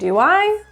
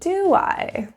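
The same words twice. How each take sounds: First: The pitch rises at the end of the tag. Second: The pitch falls at the end of the tag. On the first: "Upward intonation" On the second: "Downward intonation"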